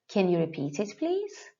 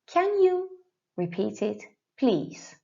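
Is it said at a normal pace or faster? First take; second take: faster; normal. First: It is said a bit faster. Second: It is said at a normal pace.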